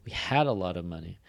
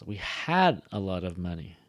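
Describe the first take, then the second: First: HAD stressed and lengthened. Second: Long, heavy HAD; stress on HAD. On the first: Teacher modeling stress on had for students. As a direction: lean hard on the word had. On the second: Teacher demonstrating the stressed past tense had. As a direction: drag out and punch had. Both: Shown as a demonstration. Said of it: "That gets, like, a lot more stress".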